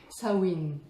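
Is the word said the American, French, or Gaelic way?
Gaelic. The word is said with a Gaelic pronunciation. "en gaélique, ça se dit, a priori, ça se dit Sawin"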